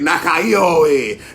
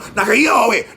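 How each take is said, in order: First: The word is said at a slower pace. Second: The word is said at a fast pace.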